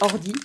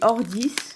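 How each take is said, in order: First: The final S sound is silent. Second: The final S sound is pronounced. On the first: This may be the correct way to say it. "mais ça se trouve c'est Ordi" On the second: This is how the speaker usually says it. "moi je dis Ordis"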